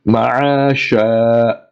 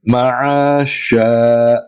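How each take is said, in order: No difference in how they are said.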